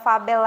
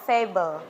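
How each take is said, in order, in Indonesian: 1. Vokal pertama berbunyi 'ah'. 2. Vokal pertama berbunyi 'ay'. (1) "bukan fabel lagi ya" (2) "Karena A itu pronounce-nya E"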